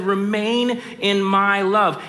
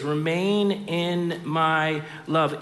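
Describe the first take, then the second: First: "Remain in my love" louder and higher, slow, "Remain" stressed; emphatic quote. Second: "Remain in my love" slowed right down, each word drawn out; slow quoted phrase. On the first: Preacher restating Jesus' words with raised, emphatic delivery. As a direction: lift and press "Remain". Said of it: "He said". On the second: Preacher quoting Jesus slowly, stretching "Remain". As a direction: linger on "Remain" as you say it. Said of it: "when I say that phrase". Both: Shown as a demonstration.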